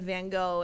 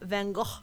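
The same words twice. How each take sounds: First: The name is said the usual English way. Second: The name is said the Amsterdam way. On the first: The speaker calls it wrong. "instead of Van Gogh" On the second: The speaker calls it right. "Trying to say Van Gogh"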